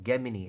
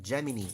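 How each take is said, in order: First: It is said with a classical Latin pronunciation. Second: It is said with an English pronunciation.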